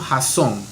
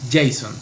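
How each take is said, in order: First: The name is said with Spanish sounds. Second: The name is said with English sounds. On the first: The speaker calls it wrong. "en Colombia te hubieran dicho Jason" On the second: The speaker calls it right. "los panameños todos sabemos pronunciar inglés"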